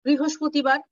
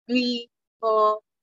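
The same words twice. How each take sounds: First: Said in the usual way. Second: বৃহস্পতিবার dragged out slow and broken; scanning speech demo. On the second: Shown as a demonstration. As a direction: stretch বৃহস্পতিবার into slow halting pieces. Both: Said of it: "ওরা বৃহস্পতিবার বলতে পারবে না".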